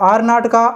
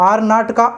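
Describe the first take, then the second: The two takes are said the same way.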